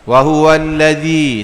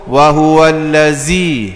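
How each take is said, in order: First: The consonant is a soft 'th' sound, as in 'this'. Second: The consonant is a buzzing 'z' sound. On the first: The speaker calls it right. "zal jangan zai" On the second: The speaker calls it wrong. "tak ambuh ... jadi zai"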